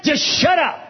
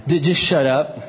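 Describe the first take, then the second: First: High, shouted plea; emphatic exhortation. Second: Said in the usual way. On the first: Retold or imitated. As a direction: cry it out high, exasperated advice. Same advice repeated, forcefully acted.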